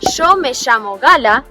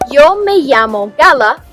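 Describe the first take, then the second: First: It is said in an Argentinian accent. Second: It is said in a Spanish accent from Spain. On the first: "from Argentinian" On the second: "from Spain"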